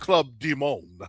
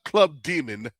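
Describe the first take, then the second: First: Demon is said with a fancier, altered pronunciation. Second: Demon is said with its ordinary pronunciation. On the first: The name is dressed up to sound less sinister. "fancify it so it doesn't like sound" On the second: This is the plain name being rejected. "it's not Club Demon"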